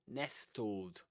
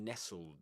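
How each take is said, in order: First: The t sound is clearly pronounced. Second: The t sound is silent. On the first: The speaker calls it wrong. "no nestled" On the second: The speaker calls it right. "or nestled in the simple past"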